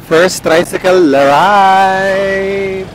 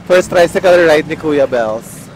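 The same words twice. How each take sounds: First: Very slow, drawn-out announcement; grand announcement. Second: Said in the usual way. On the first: Pretend. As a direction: savour each word like a big event. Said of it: "announcing first trike ride". (mabagal at engrandeng anunsyo) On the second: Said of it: "repeating the announcement".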